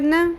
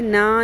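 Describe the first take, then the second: First: The vowel is short, held only briefly. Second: The vowel is drawn out long. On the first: The speaker calls it right. "इसको आधी अलिफ के बराबर खींचे, ज़्यादा लंबा ना करें" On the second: The speaker calls it wrong. "नहीं पढ़ना इसको"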